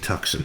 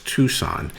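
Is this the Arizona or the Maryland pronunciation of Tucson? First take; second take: Maryland; Arizona. First: It uses the Maryland and South Jersey pronunciation. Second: It uses the Arizona local pronunciation. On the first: "If you're from uh, Maryland or South Jersey, ... it would be Tucson" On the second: "if you live in Arizona, it's Tucson"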